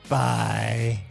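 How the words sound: The voice sounds rough and throaty. "Oh, throaty"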